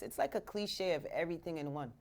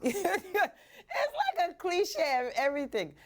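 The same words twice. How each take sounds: First: Said in the usual way. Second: High, slow and laughing; slowed, giggling repeat. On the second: Shown as a demonstration. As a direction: laugh your way through it.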